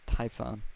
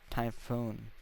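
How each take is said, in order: First: The last syllable has a short 'o' vowel. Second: The last syllable has a long 'oo' vowel. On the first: This is the technically correct way of saying it. "that is technically how you say it though" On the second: This is the speaker's habitual way of saying it. "it's always like Typhoon"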